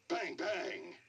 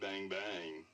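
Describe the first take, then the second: First: It is said in an angry tone. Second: It is said in a flirty tone. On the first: "like angry"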